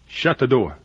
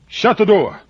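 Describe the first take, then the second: First: It is said at a normal volume. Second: It is said very loudly.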